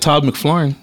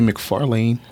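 First: The name is squeezed, with the middle vowel dropped. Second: The name is said in full, with the middle vowel. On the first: This is how the owner of the name says it. "He says Flarn" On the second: This is how other people commonly say it. "People used to say McFarlane"

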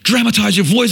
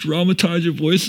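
First: The voice sounds angry. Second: The voice sounds sad. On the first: "So it'd be angry. So I'd be reading it in anger" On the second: "And then it'd be like sad"

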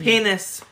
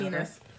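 First: The word is said at a louder volume. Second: The word is said at a softer volume. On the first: "you say it a little bit louder" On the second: "I say penis"

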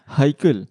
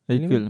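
First: The name starts with a breathy H sound. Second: The name starts with no H sound. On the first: "if you want to pronounce the H" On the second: "you also say Aikel every time"

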